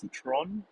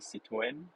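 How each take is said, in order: First: It is said the way locals say it. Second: It is said the French way. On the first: This is how people say it locally. "locally people pronounce it as Citron" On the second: This is the original pronunciation. "The actual pronunciation is called Citroën, where there's a silent R or something like that"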